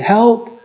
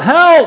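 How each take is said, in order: First: The word is said quietly. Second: The word is cried out loudly. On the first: The speaker calls it wrong. "They don't cry quietly, do they? They don't say" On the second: The speaker calls it right. "they're crying out"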